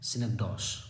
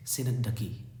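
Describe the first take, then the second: First: सिनकडॉश ending in a "dosh" sound; mistaken pronunciation. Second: सिनकडकी ending in "duh-kee"; correct pronunciation. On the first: Teacher showing students a common misreading, mispronounced ending in "dosh". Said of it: "बहुत सारे इसे teacher भी पढ़ते हैं". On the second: Teacher showing students how the term is pronounced, ending सिनकडकी in "kee". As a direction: say सिनकडकी with a k sound and a final long ee. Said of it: "इसका pronunciation है". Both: Shown as a demonstration.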